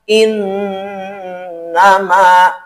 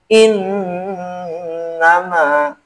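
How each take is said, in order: First: The nasal n is pressed and held long. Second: The nasal n is pressed and held long.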